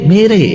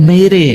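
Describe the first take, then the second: Both takes have the same delivery.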